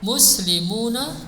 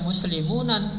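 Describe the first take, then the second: First: The word ends on a plain vowel, no n. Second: The word ends with an added final n sound. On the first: The speaker calls it right. "enggak ditanwin" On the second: The speaker calls it wrong. "jangan dibaca muslimunan"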